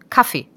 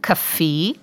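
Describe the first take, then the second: First: The stress is on the short first syllable. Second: The stress is on the long last syllable. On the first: This is the German way of saying it. "In Deutschland vorne und kurz" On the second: This is the Austrian way of saying it. "In Österreich wird Kaffee hinten lang betont"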